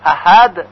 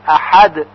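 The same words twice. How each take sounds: First: احد with a light Persian ه instead of ح; wrong plain h. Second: احد with a strong throat ح; throaty ha. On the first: Teacher showing the mistaken ه in احد. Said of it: "غلط هست". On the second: Teacher showing the right ح in احد. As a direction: say احد with a husky ح. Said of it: "با حاء جیمی هست". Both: Shown as a demonstration.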